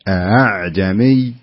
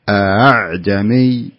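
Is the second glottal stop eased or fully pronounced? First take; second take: eased; eased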